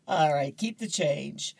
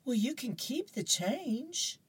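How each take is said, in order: First: Said in the usual way. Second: Much higher, softer, coaxing; a mother baiting her son; mom voice. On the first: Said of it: "host repeats line plainly". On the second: Acted. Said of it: "Mom goes".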